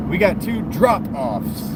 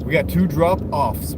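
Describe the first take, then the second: First: Slow "drop-offs" with "drop" punched higher; stress on DROP. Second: Slow "drop-offs" with the weight on "offs"; stress on OFFS. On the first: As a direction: hit the first half of "drop-offs", the "drop". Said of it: "Let's emphasize the drop". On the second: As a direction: hit the second half of "drop-offs", the "offs". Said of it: "emphasizing the off". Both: Shown as a demonstration.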